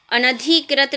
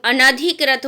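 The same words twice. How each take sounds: First: अनधिकृत with the धि stretched to "dhee"; wrong vowel length. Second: अनधिकृत said slowly with a plain A on ना; slow model of अनधिकृत, "a-na-dhi-krit"; correct pronunciation. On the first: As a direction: lean on a long I in अनधिकृत. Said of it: "अनधिकृत नहीं होता". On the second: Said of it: "ना पे कोई मात्रा नहीं आएगी". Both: Shown as a demonstration.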